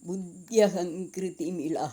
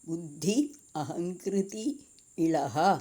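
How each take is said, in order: First: The words run together as one joined word. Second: The words are said separately, one by one. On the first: "എന്നുണ്ട്" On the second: "അങ്ങനെ വായിക്കണം"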